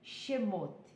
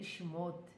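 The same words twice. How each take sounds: First: A full e vowel follows the sh sound. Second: The e after the sh sound is dropped.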